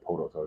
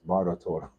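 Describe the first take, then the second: First: The name begins with a P sound. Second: The name begins with a B sound. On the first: The speaker calls it wrong. "I said Poto Total" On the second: The speaker calls it right. "That's what it is"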